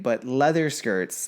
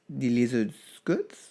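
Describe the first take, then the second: First: The first word sounds like leather. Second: The first word sounds like lizard.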